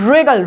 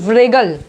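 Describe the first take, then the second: First: It starts with a plain R sound. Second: It starts with a W sound before R. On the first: The speaker calls it right. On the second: The speaker calls it wrong. "ना कि व्रेगल"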